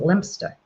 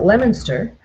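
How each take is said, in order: First: It is pronounced the British way. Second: It is pronounced the American way. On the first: "over there you pronounce it Leominster" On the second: "here we pronounce it Leominster"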